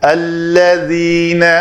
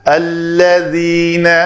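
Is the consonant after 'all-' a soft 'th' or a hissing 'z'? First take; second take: th; th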